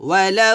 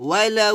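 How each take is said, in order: Both takes have the same delivery.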